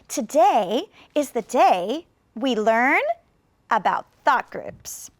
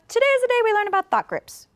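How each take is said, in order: First: It is said slowly with many pauses. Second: It is said quickly with no pauses. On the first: Many listeners need to understand clearly. "then maybe I will add even more" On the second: The listener is close family. "If I was speaking to my family very quickly"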